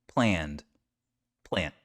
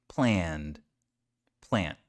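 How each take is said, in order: No difference in how they are said.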